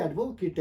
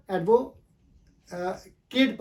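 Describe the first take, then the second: First: एडवोकेट ending in a short "kit"; the noun एडवोकेट with a reduced last vowel; noun pronunciation. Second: एडवो- केट broken in two, ending in a long "kayt"; verb pronunciation. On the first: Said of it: "जब noun पढ़ेंगे". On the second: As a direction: say केट as "kate" after a slow एडवो-. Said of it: "verb के तौर पे लेंगे". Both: Shown as a demonstration.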